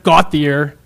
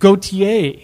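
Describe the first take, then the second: First: The name is said with an English-style pronunciation. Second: The name is said with a French-style pronunciation. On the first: This is the pronunciation the family had been using. The speaker calls it wrong. "not Gautier" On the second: This is the pronunciation the sister now insists on. The speaker calls it right. "is pronounced Gautier"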